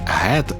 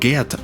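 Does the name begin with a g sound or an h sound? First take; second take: h sound; g sound. First: The name begins with a breathy h sound. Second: The name begins with a hard g sound. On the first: The speaker calls it wrong. "а не Гет, як запропоновано в перекладі" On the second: The speaker calls it right. "я вимовляю його ім'я як Гет"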